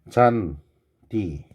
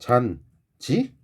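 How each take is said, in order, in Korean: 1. 두 번째 음절은 d 소리로 시작합니다. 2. 두 번째 음절은 j 소리로 시작합니다. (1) "원래 있는 그대로 D라고 발음을 해야지" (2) "잔지라고 하면 안 돼"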